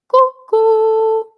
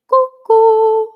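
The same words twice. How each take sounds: First: It sounds open and spacious with a lifted palate. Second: It sounds open and spacious with a lifted palate.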